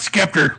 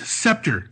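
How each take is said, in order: First: The word begins with a hard sk sound. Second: The word begins with a soft s sound. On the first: The speaker calls it wrong. "not Skepter" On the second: The speaker calls it right.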